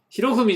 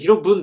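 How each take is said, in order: First: The name ends with the sounds 'fumi'. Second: The name ends with the sounds 'bun'. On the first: The speaker calls it wrong. "ひろふみじゃなくて" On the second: The speaker calls it right. "ひろぶんでした"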